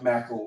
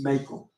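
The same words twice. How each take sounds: First: It sounds like the start of macaroni. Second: It does not sound like macaroni's start. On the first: The speaker calls it wrong. "You want to pronounce it like Mackall, like macaroni" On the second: The speaker calls it right. "but it's not, it's Mackall"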